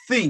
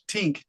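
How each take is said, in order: First: The word begins with a th sound. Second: The word begins with a plain t sound. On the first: The speaker calls it right. "The word is think" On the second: The speaker calls it wrong. "I can hear it with my American ears, tink, T I N K"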